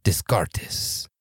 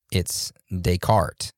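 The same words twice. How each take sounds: First: Descartes said the Spanish way, "des-KAR-tes", s sounds kept. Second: Descartes said the French way, "day-KART", silent s; correct French Descartes. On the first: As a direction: read Descartes as Spanish, "dees-car-tees". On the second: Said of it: "Descartes being pronounced so wrong". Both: Shown as a demonstration.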